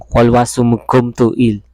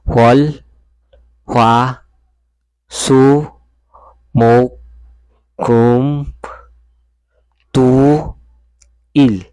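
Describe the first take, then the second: First: The syllables are run together quickly. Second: The syllables are said slowly, one by one. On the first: "mabilis ba?" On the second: "bagalan natin"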